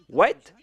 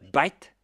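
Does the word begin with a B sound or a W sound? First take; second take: W sound; B sound. First: The word begins with a W sound. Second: The word begins with a B sound.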